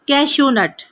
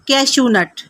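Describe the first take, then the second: First: The first word ends with an 'oo' sound. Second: The same.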